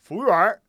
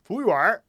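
First: It is said in a Beijing accent. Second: It is said in a Beijing accent.

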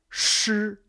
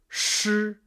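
Both takes have the same delivery.

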